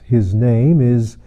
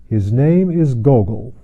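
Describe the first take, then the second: First: His name is said very slowly, name stretched out; slow suspense. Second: Said in the usual way. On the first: A narrator's reading. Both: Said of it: "he said slowly".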